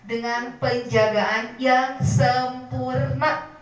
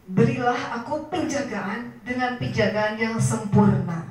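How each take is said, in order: First: Slowed, half-sung phrase to write down; slow for note-taking. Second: Said in the usual way. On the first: Shown as a demonstration. Teacher dictating the prayer to the mothers, slow half-sung. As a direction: dictate it slowly and clearly. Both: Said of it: "catat ya".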